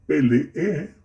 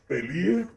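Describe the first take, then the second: First: The two final e vowels are sounded separately. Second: The two final e vowels blend together. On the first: The speaker calls it right. "Lo correcto es peleé" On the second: The speaker calls it wrong. "estos pretéritos están mal dichos"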